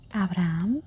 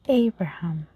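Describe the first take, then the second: First: The H sound is silent. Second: The H sound is pronounced. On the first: This is the Spanish pronunciation. "In Spanish, we say Abraham. We forget completely about the H" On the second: This is the English pronunciation. "In English, even though we write the same way, we say Abraham"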